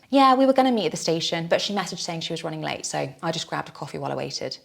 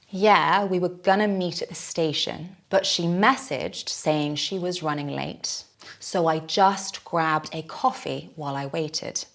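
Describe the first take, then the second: First: It is said at fast natural speed. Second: It is said slowly.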